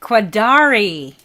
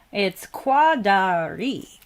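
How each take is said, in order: First: Quadari with stress on the second syllable, da; corrected pronunciation. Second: Quadari with a flat first syllable; careful, slow Quadari; first try at Quadari. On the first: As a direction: lean into the da of Quadari. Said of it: "emphasis on the second syllable and say Quadari". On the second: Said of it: "she helped me understand how to say". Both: Shown as a demonstration.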